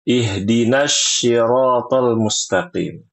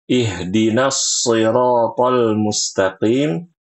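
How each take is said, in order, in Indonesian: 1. Siratal diawali dengan bunyi 'sh'. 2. Siratal diawali dengan bunyi 's' yang tajam. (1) "seringnya kalau baca" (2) "tertulisnya dengan huruf shad"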